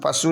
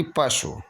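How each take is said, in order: First: पशु as pa-soo with held oo; long final oo. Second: पशु with a brief shu; short final u. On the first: Teacher showing the error, पशु with long oo. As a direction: stretch the end of पशु. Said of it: "नहीं बल्कि". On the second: Teacher giving the correction, पशु with short shu. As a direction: clip the end of पशु. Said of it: "बल्कि पशु". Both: Shown as a demonstration.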